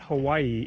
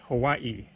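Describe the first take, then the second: First: The ending has a single i sound. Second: Both i sounds are pronounced at the end. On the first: The speaker calls it wrong. "it's actually not Hawaii" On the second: The speaker calls it right. "You pronounce like both of the I's"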